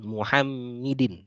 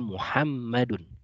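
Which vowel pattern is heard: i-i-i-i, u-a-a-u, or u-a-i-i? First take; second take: u-a-i-i; u-a-a-u. First: The vowels run u, a, i, i. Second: The vowels run u, a, a, u. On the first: The speaker calls it wrong. "bukan Muhammidin" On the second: The speaker calls it right. "maka membacanya adalah Muhammadun"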